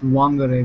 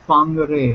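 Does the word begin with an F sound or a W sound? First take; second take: W sound; F sound. First: The word begins with a W sound. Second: The word begins with an F sound. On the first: The speaker calls it wrong. "it's not pronounced Wangare because apparently the W is silent" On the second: The speaker calls it right. "It's pronounced Fangare"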